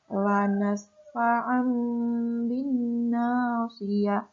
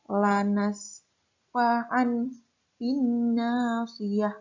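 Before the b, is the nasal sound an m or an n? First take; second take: m; n. First: The nasal before the b becomes an m. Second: The nasal before the b stays an n. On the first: The speaker calls it right. "Itu ada fathah tanwin bertemu dengan ba" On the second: The speaker calls it wrong. "bukan lanas fa'an bin nasiyah, bukan seperti itu"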